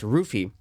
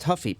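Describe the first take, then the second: First: The name begins with an R sound. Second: The name begins with an H sound. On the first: The speaker calls it right. "It's actually pronounced Ruffi" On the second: The speaker calls it wrong. "it's not pronounced Huffy"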